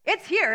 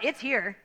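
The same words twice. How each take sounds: First: "It's here" pitched higher, with "here" landing firmly; stress on here. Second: Said in the usual way. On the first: Shown as a demonstration. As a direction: repeat "It's here" with a lift to drive it home. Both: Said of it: "but guess what?".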